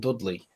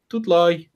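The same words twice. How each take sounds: First: Said in the usual way. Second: Higher "Dudley" with a broad Brummie "lie" ending; Brummy accent. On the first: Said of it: "Pronouncing the town called Dudley". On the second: Shown as a demonstration. Showing how terrible "Dudley" sounds in Brummy accent. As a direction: say "Dudley" as Dud-loy, in Birmingham accent. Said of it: "with that accent, it's terrible".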